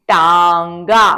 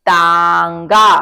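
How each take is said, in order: No difference in how they are said.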